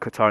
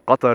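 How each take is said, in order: First: It is said with an American accent. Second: It is said with an Arabic accent. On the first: "in the American accent" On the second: "in the Arabic accent"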